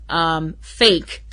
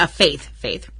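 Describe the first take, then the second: First: Says "Fake" for the name Faith; "Fake" slips out instead of "Faith"; tongue tangled. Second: Said in the usual way. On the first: Real, not acted. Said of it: "my tongue is getting tangled". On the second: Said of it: "I'm sorry, Fa".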